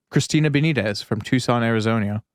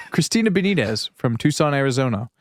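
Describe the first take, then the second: First: Tucson said as "tuh-SAHN", clipped; odd Tucson pronunciation. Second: Tucson said "TOO-sahn", normal; corrected Tucson pronunciation. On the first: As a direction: say "Tucson" with the hard T, as the movie character did. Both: Real, not acted. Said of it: "I pronounced it like the fucking guy".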